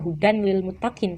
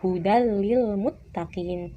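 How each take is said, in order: First: The n is pronounced clearly before the l. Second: The n merges into the l, without nasalization. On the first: The speaker calls it wrong. "Tidak dibaca" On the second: The speaker calls it right. "tetapi hudal lil muttaqin tanpa disertai dengan gunnah"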